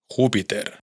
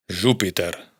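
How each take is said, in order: First: Said in the usual way. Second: "Júpiter" con jota catalana sonora y erre final; Júpiter catalán. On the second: Shown as a demonstration. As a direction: di "Júpiter" con la j suave, como "yupiter" francés. ("Júpiter" a la catalana) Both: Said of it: "lo más probable es que sí se pronuncie".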